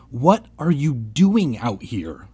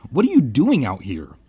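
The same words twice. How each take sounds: First: Slow, deliberate question; repeated, hiding fear. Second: A quick, lively called question; calling out. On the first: Narrator asks the silent kids once more, repeated slowly. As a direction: spell it out slowly, keeping fear in check. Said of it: "trying not to sound as frightened as I felt". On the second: Narrator hails kids in the fog, calling out. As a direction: call it out to strangers. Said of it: "I called to them". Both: A narrator's reading.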